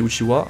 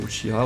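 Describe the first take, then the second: First: The last syllable is said as 'wa'. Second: The last syllable is said as 'ha'. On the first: "on dit Uchiwa" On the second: "mais c'est Uchiha aussi"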